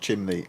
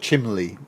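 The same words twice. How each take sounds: First: The middle consonant is an N sound. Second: The middle consonant is an L sound. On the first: The speaker calls it wrong. "the N sound is too much of an interruption in the word" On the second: The speaker calls it right. "you sing the word chimney instead of"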